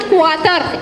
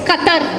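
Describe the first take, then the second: First: The word begins with a 'kw' sound. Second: The word begins with a plain 'k' sound. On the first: The speaker calls it wrong. "It's not Q U A T A R. It's not Qatar" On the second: The speaker calls it right. "It's Qatar"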